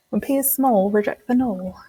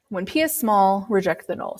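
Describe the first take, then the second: First: Mock British accent on the rhyme; bad British accent. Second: Said in the usual way. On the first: Shown as a demonstration. Teacher doing a bad British accent for the class rhyme. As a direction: stretch small and null so they rhyme, British style. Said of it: "if you say it in kind of a British, British accent". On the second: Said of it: "I always like to use that little, it's a pseudo rhyme".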